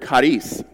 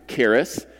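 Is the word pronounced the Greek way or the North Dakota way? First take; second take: Greek; North Dakota. First: It is pronounced with a Greek pronunciation. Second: It is pronounced with a North Dakota accent. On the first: The speaker calls it right. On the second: The speaker calls it wrong.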